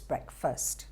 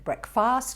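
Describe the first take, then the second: First: The second vowel sounds like 'er'. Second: The second vowel sounds like 'ah'. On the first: The speaker calls it right. "the second A is pronounced er" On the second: The speaker calls it wrong. "not ah. It won't be breakfast"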